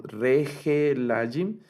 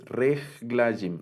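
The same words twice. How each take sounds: First: "regelajim" with an extra "e" sounded after the g; wrong voiced sheva. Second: "reglajim" slowly, no vowel between g and l; silent sheva. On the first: Teacher showing students a misreading, "regelajim" with the sheva voiced as "e". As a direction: sound out all four syllables, re-ge-la-jim, in "regelajim". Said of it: "noten que no leemos". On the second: Teacher correcting the misreading, "reglajim" with the sheva left silent. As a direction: run g straight into l in "reglajim", three syllables. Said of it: "no suena". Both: Shown as a demonstration.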